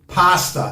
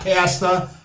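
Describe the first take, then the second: First: It is said with an Italian pronunciation. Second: It is said with an American pronunciation. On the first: The speaker calls it right. "they also say it's pasta" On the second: The speaker calls it wrong. "not pasta"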